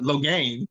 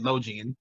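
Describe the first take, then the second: First: The name ends with a "gain" sound. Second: The name ends with a "gee-an" sound. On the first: This is how the name is actually said. The speaker calls it right. "but Logain" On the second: This is how the speaker used to say it. The speaker calls it wrong. "I always said Logian"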